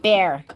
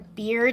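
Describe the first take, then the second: First: The vowel sounds like the one in 'bear'. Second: The vowel sounds like the one in 'beer'. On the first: The speaker calls it wrong. "bear, like the animal" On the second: The speaker calls it right. "Are you asking for a beer to drink"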